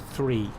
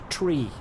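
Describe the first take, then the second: First: The word begins with a 'th' sound. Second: The word begins with a plain 't' sound. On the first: "Same with the number three" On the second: "in proper aviation speak, you say tree"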